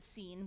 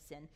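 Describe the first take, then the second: First: The vowel is a long 'ee' sound. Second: The vowel is a short 'i' sound. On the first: This is how the original Hebrew word sounds. "that was a Hebrew word, they'd pronounce it seen" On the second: This is the usual English way of saying it. "we just say sin"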